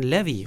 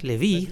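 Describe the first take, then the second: First: The stress is on the first syllable. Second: The stress is on the second syllable. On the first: The speaker calls it right. "dass die Worte auf der ersten Silbe betont werden" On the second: The speaker calls it wrong. "Nicht Levi"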